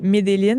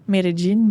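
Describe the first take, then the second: First: The double L is said as an L sound. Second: The double L is said as a Y sound. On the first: The speaker calls it wrong. "je le prononce pas comme il faut" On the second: The speaker calls it right. "je crois qu'il faut le dire Medellin"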